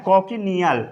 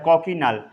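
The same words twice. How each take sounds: First: कॉकिनियल with a full extra syllable, ko-ki-ni-yal; with the a sounded. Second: कॉकिनल in three syllables, ko-ki-nal; silent a. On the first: Teacher showing the common reading, कॉकिनियल in four syllables. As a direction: say कॉकिनियल sounding every vowel. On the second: Teacher giving the correct reading, कॉकिनल with the vowel dropped. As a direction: drop the a, say कॉकिनल. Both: Shown as a demonstration. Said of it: "ए को silent कर देते हैं".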